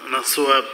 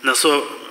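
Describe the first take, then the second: No difference in how they are said.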